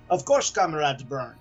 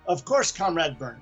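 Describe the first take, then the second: First: It is said in a thick Russian accent. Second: It is said in a plain, neutral accent.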